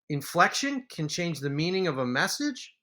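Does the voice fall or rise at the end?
rise. The voice rises at the end like a question. It is asked as a question.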